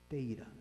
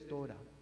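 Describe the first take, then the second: First: The first vowel is an 'ay' sound. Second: The first vowel is an 'o' sound. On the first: "los judíos askenazim dicen Teira" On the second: This is the usual pronunciation. "en vez de Torah"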